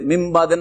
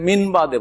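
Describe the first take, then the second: First: The first word ends with an m sound. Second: The first word ends with an n sound. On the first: The speaker calls it right. "মিমবাদে না পড়ে" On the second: The speaker calls it wrong. "কেউ যদি মিনবাদে পড়ে"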